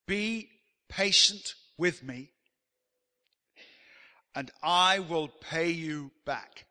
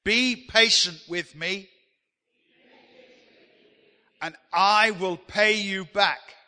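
First: Slow, drawn-out plea on his knees; pleading servant. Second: Loud, slow lead line for the congregation; call and response. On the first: Acted. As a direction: beg the master for patience, slowly. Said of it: "The servant fell on his knees". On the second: Shown as a demonstration. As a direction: boom it out so the room joins in. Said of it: "I want you to say that with me".

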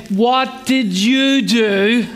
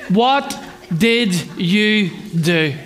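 First: Very slow, weight on "you" in "What did you do?"; repeated parent's question. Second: Very slow, weight on "What" in "What did you do?"; wise parent's question. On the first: Parent pressing the silent child again, slow emphasis on you. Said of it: "And you have to say". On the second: Parent asking a squabbling child, stern and slow. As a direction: lean on "What", then let "did you do?" fall, slowly. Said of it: "every wise parent will ask a question". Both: Retold or imitated.

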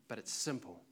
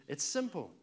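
First: Said in the usual way. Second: It's simple with "simple" punched loud; a firm, loud "simple"; emphatic simple. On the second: Shown as a demonstration. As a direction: hit "simple" hard and let it fall.

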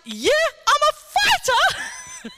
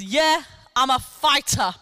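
First: High, laughing mockery of her words; a slow, laughing echo of the woman's boast; incredulous mocking quote. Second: A slow, lightly voiced steely retort; a hint of a proud patient's tough answer; steely boast. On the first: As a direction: repeat it in high, laughing disbelief. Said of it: "You've just been healed by the King of Kings". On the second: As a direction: say it flatly, sure of yourself. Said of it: "Like that, like, with steely eyes".

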